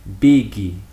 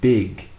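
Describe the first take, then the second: First: The word ends with an added vowel sound. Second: The word ends cleanly on the consonant. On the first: The speaker calls it wrong. "Some people often have this tendency to say biggie" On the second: The speaker calls it right. "Remember to finish it with the consonant"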